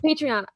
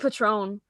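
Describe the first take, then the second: First: The name is said with three syllables. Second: The name is said with two syllables. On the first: The speaker calls it right. "You mean Patreon?" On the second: The speaker calls it wrong. "I say Patron"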